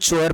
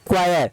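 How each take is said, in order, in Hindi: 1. यह 'ch' ध्वनि से शुरू होता है, जैसे 'chore'। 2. यह 'kw' ध्वनि से शुरू होता है, जैसे 'kwire'। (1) "मैं जानता हूं कि आप इसको चोर पढ़ेंगे, जी नहीं" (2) "पढ़ते हैं क्वायर"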